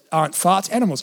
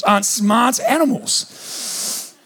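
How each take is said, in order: First: "smart" slips out as "farts"; stumble, saying "farts" for "smart"; tongue slip. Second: "smart" said slowly and distinctly; careful correction. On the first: Slip of the tongue before correction. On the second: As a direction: correct yourself, drawing out "smart" very deliberately. Slow correction of own slip. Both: Real, not acted.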